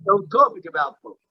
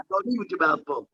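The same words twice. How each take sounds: First: Firm stress on "talk" in the corrected rule. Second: "eat" leaned on, the rest dropping softer; mild stress on "eat" in the misquote. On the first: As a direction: land on "talk" to fix the quote. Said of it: "Yeah, good point". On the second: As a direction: put the weight on "eat" as the word to correct. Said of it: "No, don't talk". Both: Shown as a demonstration.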